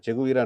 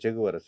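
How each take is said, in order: First: The third syllable has a long 'ee' vowel. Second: The third syllable has a short 'a' vowel. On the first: This is the common local way of saying it. "మన చెగువీర అంటారు కదా" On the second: This is the original way of saying it. "Actual pronunciation చెగువర"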